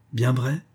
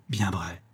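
First: "Bien vrai?" with a rising question tune; doubtful rising "Bien vrai". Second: "Bien vrai." falling low and softer; quiet falling "Bien vrai"; settled affirmation. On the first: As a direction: ask it back, rising. Asking him to confirm. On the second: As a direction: confirm it, dropping the voice. Firm confirmation. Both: A narrator's reading.

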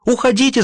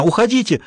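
First: High urgent shout to flee. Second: Repeated shout, falling at the end. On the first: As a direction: yell at them to get out. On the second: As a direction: cry out again to get out. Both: A narrator's reading. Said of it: "закричала она".

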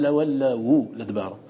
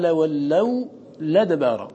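First: لولوا لدبارا as "lawallawu ladbara"; waw with damma. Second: لولوا لدبارا with waw left vowelless before "ladbara"; hamza dropped. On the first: Teacher showing Warsh's reading, waw voiced with u in لولوا لدبارا. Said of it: "ومع ذلك ضم الواو". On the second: Teacher showing Warsh's transfer, unvowelled waw in لولوا لدبارا. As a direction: end on "law", then "ladbara" in لولوا لدبارا. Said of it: "ورش نقل". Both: Shown as a demonstration.

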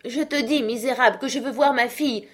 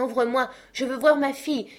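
First: Put-on high, loud angry old father; father raging at the man behind the door; furious cry. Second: Put-on high, loud old father calling through a door, rushing; frantic father shouting at the locked door; desperate cry. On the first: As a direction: hurl it at him. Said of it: "s'écria monsieur Manxit". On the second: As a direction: beg to be let in. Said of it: "s'écriait". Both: A narrator's reading.

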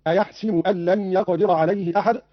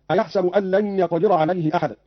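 First: "أيحسب" as "ayahsibu"; kasra on seen. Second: Said in the usual way. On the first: Shown as a demonstration. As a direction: use a short i after the seen in "أيحسب". ("أيحسب" بكسر السين) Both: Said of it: "قرأ قالون بكسر السين".

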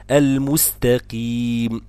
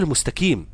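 First: Careful model recitation of المستقيم with q, never k; correct qaf. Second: Quick المستقيم with k in place of q; wrong pronunciation. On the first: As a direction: recite المستقيم keeping the q, long final ee. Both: Shown as a demonstration. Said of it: "اوعى تقول المستقيم".

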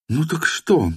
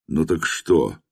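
First: «Ну так что?» in her higher voice; woman's voice. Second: Said in the usual way. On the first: A narrator's reading. («Ну так что?» женским голосом)

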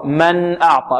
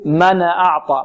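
First: "من" closed on a plain n before "أعطى"; clear still noon. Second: "من" said as "mana", a stray vowel after the noon; noon wrongly vowelled. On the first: Shown as a demonstration. Teacher correcting a recitation error, noon kept still. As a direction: say "من أعطى" with the noon unvowelled and unbounced. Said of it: "لا، خطأ، من أعطى". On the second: Retold or imitated. Teacher showing students a common error, noon given a vowel. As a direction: imitate the mistake, bouncing the noon in "من أعطى". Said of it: "يقلقل النون أو يحركها، يقول".

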